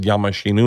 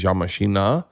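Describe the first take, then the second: First: "Yamashinu" ending on a u sound; mistaken Russian phrase. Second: "Yamashina" ending on an open a; intended Russian phrase. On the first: Comic shows his slip to the Russians, "Yamashinu" ending in "oo". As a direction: say "Yamashinu" with a final "oo". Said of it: "it just means I'm a car". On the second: Comic shows what he meant to tell Russians, "Yamashina" ending in "ah". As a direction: say "Yamashina" with a final "ah". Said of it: "but I said Yamashinu". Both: Shown as a demonstration.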